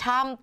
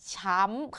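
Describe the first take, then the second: First: The syllable has its plain, unmarked tone. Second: The syllable has the mai tho tone. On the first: "ชออำชำ" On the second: "เติมไม้โทเป็นช้ำค่ะ"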